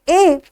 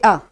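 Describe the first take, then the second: First: The word has a full, stressed vowel. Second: The word has a short, unstressed reduced vowel. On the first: "when we say in strong form" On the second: "this A becomes a"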